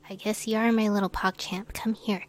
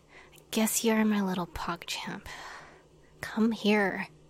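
First: It is said in a plain, ordinary tone. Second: It is said in a grudging, tsundere tone.

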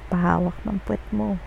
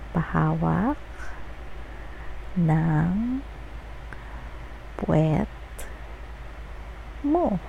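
First: The phrase is spoken at a normal pace. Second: The phrase is spoken slowly.

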